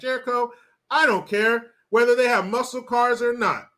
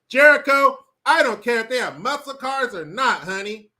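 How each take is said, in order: First: It is said in a plain voice. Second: It is said in a put-on voice.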